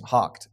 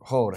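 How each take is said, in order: First: It is said with a k sound. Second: It is said with a long o sound. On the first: The speaker calls it right. "H-O-U-G-H-E-D is hocked" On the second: The speaker calls it wrong. "or hoed"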